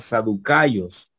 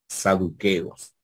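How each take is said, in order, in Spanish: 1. La vocal después de la k suena como 'ai'. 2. La vocal después de la k suena como 'e'. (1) "si vemos en el sistema erasmiano sería saducayos" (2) "Aquí en cambio el histórico se acerca más"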